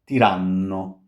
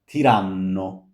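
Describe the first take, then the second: The two takes are said the same way.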